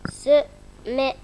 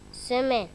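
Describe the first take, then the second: First: "Semaine" sounded out as se-maine, syllable by syllable; syllabic reading. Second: Said in the usual way. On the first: Shown as a demonstration. Pupil reading aloud for teacher, syllable by syllable. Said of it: "la lecture syllabique". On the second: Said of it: "il reprend la lecture de ce mot en mot".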